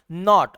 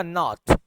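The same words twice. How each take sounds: First: नॉट with an "ah" for the o; American not. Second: नॉट with a rounded o; British not. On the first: Teacher demonstrating American नॉट, open ah vowel. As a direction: say नॉट as "naht". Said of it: "American इसको बोलेगा". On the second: Teacher demonstrating British नॉट, rounded o. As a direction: keep the o in नॉट. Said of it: "British बोलेगा". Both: Shown as a demonstration.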